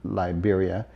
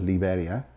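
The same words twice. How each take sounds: First: It is said with an American accent. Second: It is said with a non-American accent. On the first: "I'm saying it with an American accent" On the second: "instead of Liberia"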